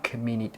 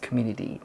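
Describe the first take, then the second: First: The middle consonant is a clear T sound. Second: The middle consonant sounds like a soft D. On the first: "it's not community" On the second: "how it's pronounced in American English, especially, is that it's community ... kind of like D sound"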